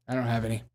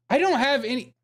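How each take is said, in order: First: Said in the usual way. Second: Much higher put-on voice; high-pitched acting. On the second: Streamer acting out a bit about missing mayo, high-pitched. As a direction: say it way up high, hammed-up. Acted bit within stepmother impression.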